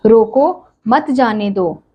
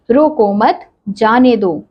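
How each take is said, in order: First: रोको, then a clear pause before मत जाने दो; pause after रोको. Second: रोको मत together, then a clear pause before जाने दो; pause after मत. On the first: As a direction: say रोको slowly, stop, then run मत जाने दो together. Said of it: "रोको के बाद विराम चिन्ह का प्रयोग". (रोको के बाद ठहराव) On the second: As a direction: say रोको मत slowly as one unit, stop, then जाने दो. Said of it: "रोको मत" के बाद विराम चिन्ह". (रोको मत के बाद ठहराव) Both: Shown as a demonstration.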